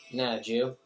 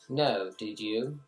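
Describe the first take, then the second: First: The words are run together into one syllable. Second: Each word is said separately and fully. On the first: This is how people in Philadelphia say it. "You just say ... you just cram all the words together" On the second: This is how most people say it. "instead of saying"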